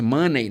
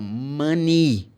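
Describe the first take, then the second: First: The last syllable ends with an 'ay' sound. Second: The last syllable ends with an 'ee' sound. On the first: The speaker calls it wrong. "People say money" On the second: The speaker calls it right.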